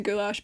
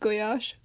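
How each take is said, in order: First: It is said the common English way. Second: It is said a different, non-English way. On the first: This is how people usually say it. The speaker calls it wrong. "people say goulash" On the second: This is how it should be said. The speaker calls it right. "but it's goulash"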